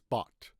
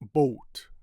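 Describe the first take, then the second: First: The vowel is an open 'ah' sound. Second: The vowel is a rounded 'oh' sound. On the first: The speaker calls it right. "in American English, it's bought" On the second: The speaker calls it wrong. "some people pronounce it boat"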